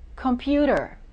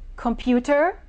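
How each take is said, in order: First: The T is a quick D-like tap. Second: The T is a crisp, clear T.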